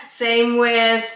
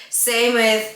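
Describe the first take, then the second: The two takes are said the same way.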